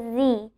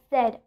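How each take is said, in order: First: The letter is named the American way. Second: The letter is named the British way. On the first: "in American accent, you pronounce it as Z" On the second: "in British accent, we pronounce Z as Z"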